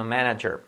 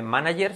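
First: "manager" as "MAN-a-djer" with English R. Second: "manager" as "ma-na-yer"; Spanish J. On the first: Teacher gives the correction, English J in "manager". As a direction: say "manager" with a "dj" sound. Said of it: "sino manager". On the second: Teacher shows the mistake, Y sound in "manager". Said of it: "no vamos a decir". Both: Shown as a demonstration.

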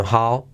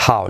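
First: "how" with a light, breathed H; just exhale into the start of "how"; soft English H. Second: "how" with a scraped Spanish J at the start; mistaken harsh H. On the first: Teacher correcting the mistake, "how" with soft H. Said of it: "sino how". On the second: Teacher showing the mistake, "how" with a Spanish J. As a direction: start "how" with a rough throat H. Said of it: "no how, sino how". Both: Shown as a demonstration.

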